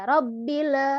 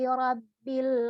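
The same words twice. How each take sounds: First: An extra e-like vowel follows the final sound. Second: The word ends cleanly with no extra vowel. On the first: The speaker calls it wrong. "ada e-nya. Jangan sampai tawallud" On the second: The speaker calls it right. "seperti itu"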